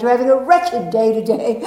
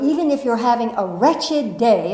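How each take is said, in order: First: Put-on mother's English accent, louder. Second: Said in the usual way. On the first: Daughter imitating mother's wretched day, English accent. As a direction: mimic mother's English accent, amused and loud. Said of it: "she'd say in an English accent".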